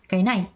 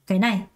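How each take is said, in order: First: Both syllables have even stress, none lighter. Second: The first syllable is light, the second stressed. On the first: The speaker calls it wrong. "이렇게 발음하는 게 아니라" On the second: The speaker calls it right. "첫 음은 살짝, 두 번째 음에 강세를 준다"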